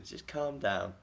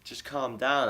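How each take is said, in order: First: Said in the usual way. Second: Higher, louder retold appeal; raised, mildly mock exasperation; exasperated plea. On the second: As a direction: plead with an irate neighbour to settle down. Retold plea to angry neighbour.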